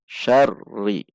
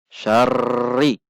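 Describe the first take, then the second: First: "syarri" with a moderate held rr; "syarri" as it should be recited; correct doubled r. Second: "syarri" with the r pushed too hard; "syarri" too forced, shown as the wrong way; wrong over-stress. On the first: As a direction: say "syarri" with gentle, steady pressure. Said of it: "Harus dibaca syarri". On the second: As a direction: overdo the rr in "syarri". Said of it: "namun tidak dibaca dengan syarri". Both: Shown as a demonstration.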